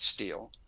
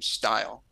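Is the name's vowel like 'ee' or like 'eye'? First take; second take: ee; eye. First: The vowel sounds like 'ee', rhyming with 'meal'. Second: The vowel sounds like 'eye', rhyming with 'mile'. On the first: The speaker's own family says it this way. "we pronounce it Steel" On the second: A distant branch of the family says it this way. "another part of the family he knew nothing about that pronounced the name Style"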